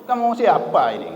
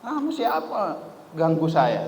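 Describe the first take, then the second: First: Mock Madurese accent, a bit higher and louder. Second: Said in the usual way. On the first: Penumpang kasar menegur pemilik kursi dengan logat Madura. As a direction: Madurese villager questioning the stranger. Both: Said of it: "Dengan logat Madurnya".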